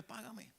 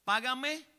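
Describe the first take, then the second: First: Págame dicho casi sin voz, mucho más bajo; el rey reclama calmado, en voz baja; rey pidiendo suave. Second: Págame más agudo y fuerte, exigente; deudor exigiendo. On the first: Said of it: "y le dice". (el rey cobra la deuda, págame en voz baja) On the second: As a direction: apretando el cuello, págame con dureza. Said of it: "aseándose de él del cuello". (el siervo ahorca a su deudor, págame exigente) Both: Retold or imitated.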